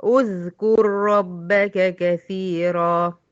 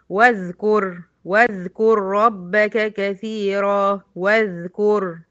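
First: أذكر begun with u, udhkur, slow recitation; starting with damma. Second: Slow recitation, واذكر joined wa-dhkur; Quran recitation. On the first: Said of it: "يبقى هضم أقول أذكر". (ابتداء أذكر بهمزة مضمومة) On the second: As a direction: chant it slowly, joining the waw. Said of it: "في الوصل دخلت من الواو على الذال". (تلاوة بطيئة موصولة) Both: Shown as a demonstration.

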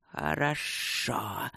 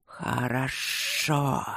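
First: Low, soft, drawn-out hiss; slyly approving rustle. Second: Slow, drawn-out rumbling assent; rumbling spirits. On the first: Serpents accept Luke's refusal, slyly approving soft hiss. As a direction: rustle slowly with sly approval. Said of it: "со странной одобрительной ехидцей прошелестели змеи". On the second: Spirits suddenly agree to help Luke, slow rumble. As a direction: roll the word out ponderously. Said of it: "вдруг пророкотали духи". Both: A narrator's reading.

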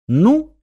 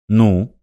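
First: Higher, teasing echo of his question; mocking mimicry. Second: Said in the usual way. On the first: A narrator's reading. Irina teasing Martin by echoing his question. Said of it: "передразнила его Ирина". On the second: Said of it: "спросил Мартин".

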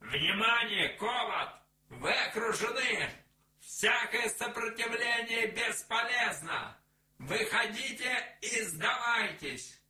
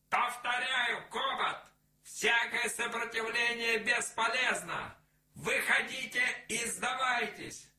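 First: Loud, high megaphone announcement; outdoor loudspeaker. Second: Loud, high megaphone announcement, repeated; outdoor loudspeaker. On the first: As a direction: bark orders through a loudspeaker. (объявление через громкоговоритель) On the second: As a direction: repeat the warning over a loudspeaker. (повторное объявление через громкоговоритель) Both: A narrator's reading. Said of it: "голос из громкоговорителя".

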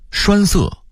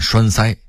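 First: Said in the usual way. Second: 栓塞 as shuānsāi; Beijing-style 栓塞 ending in level sāi; Beijing dialect reading. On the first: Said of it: "北京话念栓塞". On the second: Shown as a demonstration. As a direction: say 塞 in 栓塞 as sāi, not sè. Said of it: "北京话念".

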